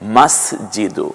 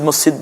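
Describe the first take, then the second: First: The word ends with an added u vowel. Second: The word ends on the consonant d. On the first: The speaker calls it right. "সহি উচ্চারণ হচ্ছে মাস জিদু" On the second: The speaker calls it wrong. "আমরা যে মসজিদ মসজিদ বলি"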